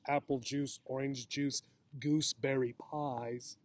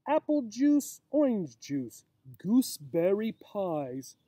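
First: Softer mock-repeat of the rhyme; quiet aside. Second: A hint of a silly doctor, slow and sing-song; doctor's rhyme. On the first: Teacher quietly repeating the doctor's silly advice to children. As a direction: murmur it back, amused. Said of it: "The doctor sounds kind of silly". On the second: Reading the doctor's silly advice to children, lightly sing-song.

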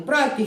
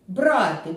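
First: «брати» as bra-TY, brothers; stress on second syllable. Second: «Брати» as BRA-ty, to take; stress on first syllable. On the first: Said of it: "коли один, два, три або п'ять братів". (наголос на другому складі: «брати») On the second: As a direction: hit «бра» in «Брати». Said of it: "брати щось у руку". (наголос на першому складі: «Брати») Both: Shown as a demonstration.

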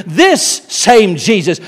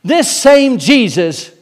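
First: This same Jesus, slow, with this held long; stress on this. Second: This same Jesus, slow, This drawn out and leaned on; slow, and lean hard on This; stress on This. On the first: Preacher to the church, this same Jesus slow with this held long. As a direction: stretch out this, slow and heavy. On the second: Preacher to the church, This same Jesus slow with This stressed. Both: Shown as a demonstration. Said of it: "notice the emphasis".

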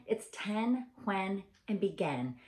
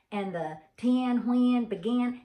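First: "ten, when, begin" said crisply with clear short e vowels; corrected pronunciation. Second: "ten, when, begin" with the vowels drawn out in a Southern way, pitched higher and louder; mock Southern vowels. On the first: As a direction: roommate demonstrating the standard "ten", "when", "begin". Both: Shown as a demonstration. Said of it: "And she said".

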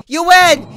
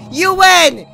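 First: Loud exasperated yell of defeat; raging gamer. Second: Repeated louder exasperated yell; raging gamer. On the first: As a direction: shout it at the game, giving up. Yelling surrender at game. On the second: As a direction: yell it again at the screen, fed up. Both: Real, not acted.

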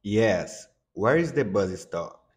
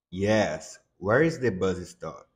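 Both takes have the same delivery.

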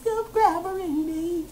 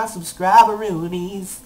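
First: High, drawn-out silly echo; playful high-pitched repeat; silly squeal. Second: Said in the usual way. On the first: Pretend. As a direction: stretch it out, small and high. Playful repeat of coined word.

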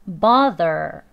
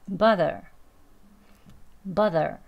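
First: Bother with a strong, loud R at the end; bother, end fully rhotic; strong final er. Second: Casual bother, tongue barely pulled; weak final er. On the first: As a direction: hit the er of bother hard. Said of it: "끝에 er 하고 강하게 발음합니다". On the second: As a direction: let the er of bother fade. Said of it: "이제 약하게 하겠죠". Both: Shown as a demonstration.

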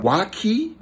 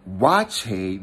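First: "waki" said with a k sound, WAH-kee; mistaken pronunciation. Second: "wache" said with a ch sound, WAH-chay; local pronunciation. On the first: Traveler naming the dish as first assumed, mistaken pronunciation. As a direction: say "waki" with a hard k in the second syllable. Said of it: "but I thought it was waki". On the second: Traveler showing how Ghanaians say the dish, local pronunciation. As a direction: say "wache" with ch and an ay ending. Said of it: "that's how they say it". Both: Shown as a demonstration.

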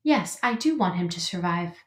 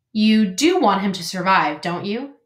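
First: Lightly voiced robot, even and restrained; a hint of a measured robot voice; robot character. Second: Lightly voiced pointed goose, stress on "do"; a hint of a prodding old goose; goose character. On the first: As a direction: answer evenly, like a robot. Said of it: "said the robot". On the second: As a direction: press the question as the goose. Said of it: "said the goose". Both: A narrator's reading.

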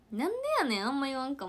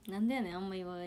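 First: Higher, louder Kansai "なんでやねん" tsukkomi; Kansai retort. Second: Said in the usual way. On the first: Shown as a demonstration. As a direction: snap it out like a Kansai comic. (関西弁で高く強めに「なんでやねん」とツッコむ) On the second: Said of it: "あんま言わんかも".

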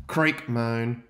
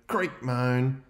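Both takes have the same delivery.

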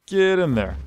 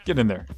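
First: Higher, louder repeated order to the cows; louder herding shout. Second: Said in the usual way. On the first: Real, not acted. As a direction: shove it out at the stubborn cow.

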